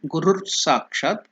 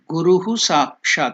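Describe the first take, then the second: First: The first word ends with a short 'r' sound. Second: The first word ends with a full 'hu' syllable. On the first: "or you can do it Gurur Sakshat" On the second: "See here, I separated it"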